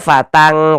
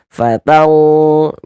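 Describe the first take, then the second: First: The final nasal sound is thin and light. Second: The final nasal sound is heavy and deep. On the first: The speaker calls it wrong. "jangan baca fatang, kalau fatang tipis" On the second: The speaker calls it right. "huruf yang tebal ya, makanya tebal kan"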